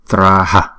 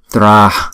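First: It ends with a full extra syllable ha. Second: It ends with only a soft breath. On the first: The speaker calls it wrong. "chúng ta không đọc là Traha" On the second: The speaker calls it right. "mà chúng đọc là Tra, cái hơi á"

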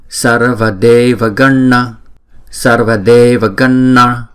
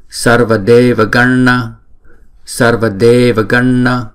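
Both takes have the same delivery.

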